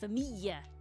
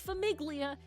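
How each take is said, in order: First: The 'gli' is said as a Y sound. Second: The 'gli' is said with a hard G. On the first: The speaker calls it right. "It's familia" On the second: The speaker calls it wrong. "Don't say famiglia"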